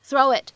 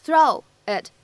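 First: "throw it" joined as "throw-wit"; linked with glide. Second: "throw it" as two separate words; careful, unlinked "throw it". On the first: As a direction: slip a w glide between "throw" and "it". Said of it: "咱们可以加上一个半元音". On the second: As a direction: leave a gap between "throw" and "it". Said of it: "throw it放". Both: Shown as a demonstration.

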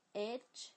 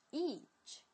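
First: Itch with a short lax i; short vowel. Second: Itch with a long tense ee like eatch; long vowel. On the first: Teacher contrasting vowel lengths, short Itch. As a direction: clip the i in Itch. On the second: Teacher contrasting vowel lengths, long itch. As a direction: stretch the ee in itch. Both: Shown as a demonstration. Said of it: "这个短的green".

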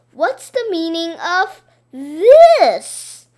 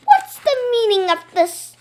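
First: Slow, loud accusing boom; mock stern demand. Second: Stern teacher. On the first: Boy throws the teacher's words back, slow and loud. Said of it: "I said". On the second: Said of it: "she asked". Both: A narrator's reading.

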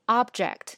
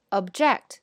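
First: OB-ject, front-stressed like the noun; noun stress on first syllable. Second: Ob-JECT, stressed at the end like the verb; verb stress on second syllable. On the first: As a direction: object with OB stressed, first syllable strong and slow. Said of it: "它的名词和动词是完全不一样的意思". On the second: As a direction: object with JECT stressed, first syllable weak. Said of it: "但是动词呢". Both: Shown as a demonstration.

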